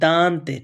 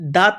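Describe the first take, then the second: First: The word has a clear n sound. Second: The word has no clear n sound. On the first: The speaker calls it right. "इसका न का उच्चारण आ रहा है" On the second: The speaker calls it wrong. "दांत नहीं"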